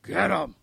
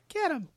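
First: The voice is rough and gravelly. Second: The voice is light and not gravelly. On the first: It is meant to sound intimidating. "he tried to get all gravelly on it" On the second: It does not sound intimidating. "But it was more like"

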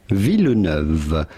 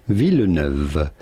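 The two takes are said the same way.

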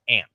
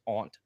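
First: The word is said in its informal pronunciation. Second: The word is said in its formal pronunciation. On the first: It is considered slang. "one is listed as an informal noun, which is aunt" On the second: It is the accepted social term. "one is listed as a formal noun, which is aunt"

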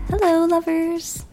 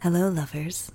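First: It is said in a sweet, light voice. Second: It is said in a sultry, seductive voice.

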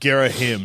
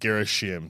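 First: The name is said without an s sound. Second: The name is said with an s sound. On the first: The speaker calls it right. "it's Girishim ... There's no S" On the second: The speaker calls it wrong. "not Girishim"

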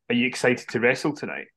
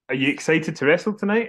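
First: It is said at a normal, softer volume. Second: It is said louder, like Stephanie repeating herself.

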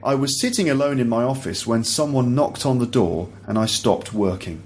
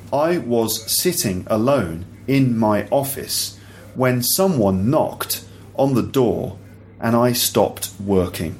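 First: The sentence is read at a natural speed. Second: The sentence is read slowly, word by word. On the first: "once again at natural speed" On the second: "once kind of more slowly so you can hear the individual words"

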